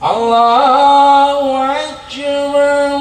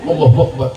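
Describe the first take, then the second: First: It is said slowly and carefully. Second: It is said very fast and rushed.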